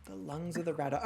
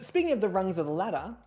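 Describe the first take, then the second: First: "The lungs of the Radda" with L and R swapped; spoonerism. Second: Said in the usual way. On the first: Shown as a demonstration. Host repeats her own tongue slip to the panel, swapped sounds.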